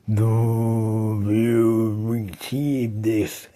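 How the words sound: It is said in a deep, mumbled voice.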